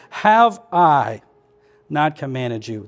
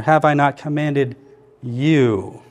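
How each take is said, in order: First: Big emphatic "I", the rest dropping away; stress on I. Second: "you" set apart after a pause; isolated, drawn-out "you"; stress on you. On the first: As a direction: lean hard on "I" and let it hang. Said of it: "The emphasis I see here is I". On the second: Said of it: "And then the last one here". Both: Shown as a demonstration.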